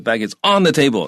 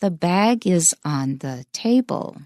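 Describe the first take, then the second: First: "on" punched high in an unnatural reading; wrong stress on "on". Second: Slow, careful model with "on" kept light; no stress on "on". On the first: Teacher showing how scary it sounds, stressed "on". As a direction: lean hard on "on" as a bad example. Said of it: "有重音的话". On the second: Teacher showing an ordinary preposition, unstressed "on". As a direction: stress "bag" and "table", never "on". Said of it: "so it has no stress". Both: Shown as a demonstration.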